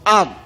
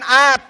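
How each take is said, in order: First: The word ends in a clean, voiced d sound. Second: The word ends in a voiceless t sound. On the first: The speaker calls it right. "Itu bersih" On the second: The speaker calls it wrong. "Kalau dibaca at salah dia"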